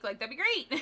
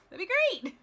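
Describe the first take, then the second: First: Said in the usual way. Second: Laughing it out, higher. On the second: Real, not acted. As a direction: say it through a laugh. Repeats with laugh.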